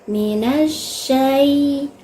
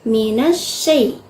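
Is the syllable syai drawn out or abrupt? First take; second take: drawn out; abrupt. First: The syllable syai is dragged out long. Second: The syllable syai is cut off abruptly. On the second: "seperti dikagetkan"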